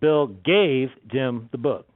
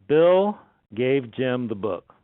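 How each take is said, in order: First: The stress is on gave. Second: The stress is on Bill.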